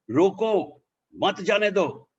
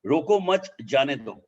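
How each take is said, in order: First: "Roko mat jane do" said higher and slower, stress on "jane"; changed tune. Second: Said in the usual way. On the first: Shown as a demonstration. Trainer showing a Hindi sentence with new meaning, higher and slower. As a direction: lift the pitch and lean on "jane" so the meaning shifts. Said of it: "if I speak like this". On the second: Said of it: "I'm making a statement".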